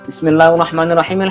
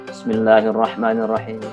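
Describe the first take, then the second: First: The phrase is recited quickly. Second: The phrase is recited slowly. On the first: "Itu kan cepat juga" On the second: "orang yang mungkin sholatnya pelan"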